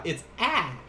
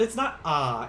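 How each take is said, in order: First: "ah" as the flat A of "cat"; contrasting flat vowel. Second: "ah" open, as in "father"; open vowel. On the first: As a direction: say "ah" as a short English "aa". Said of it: "it's a different sound". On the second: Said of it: "it's ah". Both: Shown as a demonstration.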